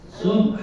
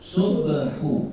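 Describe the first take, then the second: First: The word stops short on a final consonant. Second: The word ends with a full final vowel. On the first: The reciter pauses on this word. "matikannya tuh" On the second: The word is joined to what follows. "hidupkan dulu ujungnya"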